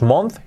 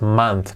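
First: "month" with an O, MONTH as spelt, rising; the mistaken "month", rhyming with a short "on"; wrong O vowel. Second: "month" as MANTH, like the start of "manzana", falling; correct A-like vowel. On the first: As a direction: say "month" with a Spanish O. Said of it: "No es month". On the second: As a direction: say "month" with an A sound. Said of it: "como manzana". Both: Shown as a demonstration.

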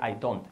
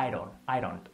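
First: I DON'T as two separate words, hard d; "I don't" unlinked and lower; non-native pronunciation. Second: IRON said as "I don't" with a tapped r for d; "I-ron", the d softened to a flap; linked native pronunciation. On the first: Teacher shows what natives avoid, unlinked I DON'T. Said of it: "no diría". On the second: Teacher shows native linking, IRON for "I don't". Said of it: "diría". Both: Shown as a demonstration.

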